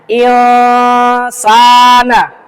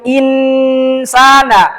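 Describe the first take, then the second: First: The n is nasalized and hidden. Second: The n is held but not hidden. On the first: The speaker calls it right. "Ini bacanya samar" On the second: The speaker calls it wrong. "Bukan insana. Kalau itu hanya ditahan, tapi tidak samar"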